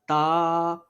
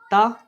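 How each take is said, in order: First: The vowel is stretched out long. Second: The vowel is short and cut off quickly. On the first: The speaker calls it wrong. "never read as" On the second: The speaker calls it right. "read without stretching and suddenly pausing the voice"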